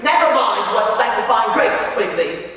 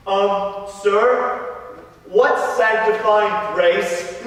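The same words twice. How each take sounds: First: Brisk, dismissive teacher's rebuke; stern schoolmaster. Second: Slow, drawn-out schoolboy question; hesitant pupil asking the master, slowly. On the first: Master puts down Question Quigley, stern and dismissive. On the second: Brendan asks the master about grace, hesitant and slow. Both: Acted.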